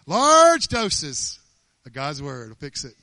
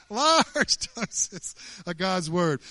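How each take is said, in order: First: Loud preaching. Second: "Large doses of God's word" stretched very slowly, each word drawn out. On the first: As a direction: hit "Large doses" as a loud sermon cry. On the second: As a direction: savour every word slowly. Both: Shown as a demonstration.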